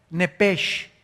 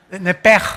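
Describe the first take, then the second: First: Nepesh read with a plain English-style sh at the end; nepesh as spelled. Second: Nepej, louder, with a strong throaty j at the end; Hebrew pronunciation. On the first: Preacher reads the Hebrew word off the page, sh ending. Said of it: "la palabra hebrea nepesh, así como suena". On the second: Preacher shows the congregation the Hebrew sound, louder throaty j. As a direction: punch Nepej and rasp the final j from the throat. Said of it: "ponen mucho énfasis en el j". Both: Shown as a demonstration.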